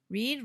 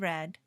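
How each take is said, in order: First: The vowel is long, like in 'need'. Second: The vowel is short, like in 'bed'. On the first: It is the present tense. "Read in the present" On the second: It is the past tense. "red in the past sounds like the color red"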